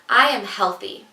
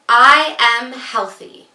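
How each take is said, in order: First: It is spoken in a normal voice. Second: It is spoken in a loud voice. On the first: "say it in a normal speaking voice" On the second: "we start with a loud voice"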